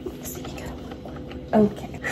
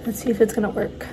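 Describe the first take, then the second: First: Hushed nervous whisper. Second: Said in the usual way. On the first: Real, not acted. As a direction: whisper it under your breath. Hoping the coffee machine works.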